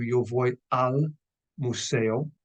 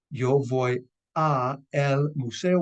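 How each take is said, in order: First: Slow yo voy al museo, al as one word; combined form. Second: Slow, separate yo voy a el museo; uncombined form. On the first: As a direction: join a and el into al, slowly. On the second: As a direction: say a el museo slowly, a and el apart. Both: Shown as a demonstration. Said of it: "which combines to".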